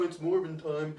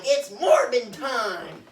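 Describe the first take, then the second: First: Said in the usual way. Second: Slow, loud, drawn-out battle cry; hammed-up hero catchphrase. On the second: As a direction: announce it like a cheesy superhero. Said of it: "and he's like".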